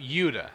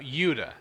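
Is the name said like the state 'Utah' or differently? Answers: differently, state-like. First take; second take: differently; differently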